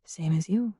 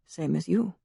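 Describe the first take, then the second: First: Soft low murmur, dropping away. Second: Soft, low echo of her words; echoed murmur. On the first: Harlequin quietly answering the stranger, murmured. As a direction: murmur it almost to herself. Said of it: "she murmured". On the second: Drongowe echoing the Harlequin's reply, soft murmur. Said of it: "he echoed her earlier murmured words". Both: A narrator's reading.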